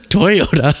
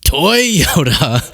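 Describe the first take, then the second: First: Lightly voiced Mister Toyota; imitating the old man. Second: Said in the usual way. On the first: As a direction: say the name slowly and proudly like the old man. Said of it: "I can just picture him saying". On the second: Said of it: "echoing the clip".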